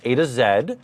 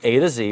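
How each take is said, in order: First: The last letter is said the Canadian way, zed. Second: The last letter is said the American way, zee.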